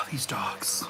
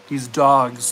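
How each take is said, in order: First: Exasperated sigh. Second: Said in the usual way. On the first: Real, not acted. Sighs at fighting dogs.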